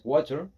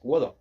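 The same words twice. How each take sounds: First: It is said in an American accent. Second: It is said in a British accent. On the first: "American English is" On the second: "British English is"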